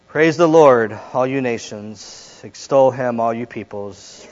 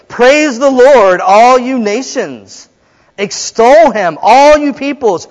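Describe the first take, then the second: First: It is read in a flat, subdued way. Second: It is read in a lively, joyful way. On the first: The speaker calls it wrong. "I don't think that's how it's supposed to be read" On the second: The speaker calls it right. "But it's"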